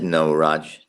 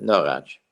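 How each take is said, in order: First: Said in the usual way. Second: Lightly imitated German accent on "No, Raj"; grandfather's German accent. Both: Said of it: "or in his accent".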